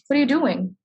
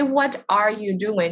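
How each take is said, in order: First: The words run together in one smooth flow. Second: Each word is said separately and fully. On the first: The speaker calls it right. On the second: The speaker calls it wrong. "We don't say"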